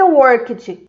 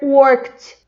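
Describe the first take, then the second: First: The ending is not a plain t sound. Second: The ending is a plain t sound. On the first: The speaker calls it wrong. "não vai ser worked" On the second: The speaker calls it right. "vai ser worked"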